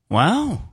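It sounds flirty.

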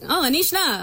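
It is said in a flat, monotone tune.

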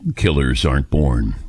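It is said in a dramatic announcer voice.

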